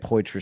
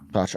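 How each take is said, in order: First: The name is said as poy-trahs. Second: The name is said as pot-ra. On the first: The speaker calls it wrong. "I used to say Poitras still" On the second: The speaker calls it right. "it's just like pot ra"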